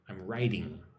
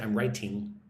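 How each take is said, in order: First: The middle T is soft, like a D. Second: The middle T is a crisp, hard T. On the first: The speaker calls it right. "Almost like riding a horse" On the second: The speaker calls it wrong. "I don't say I'm writing"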